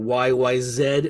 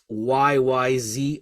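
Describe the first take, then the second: First: The title is said the New Zealand way. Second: The title is said the usual American way.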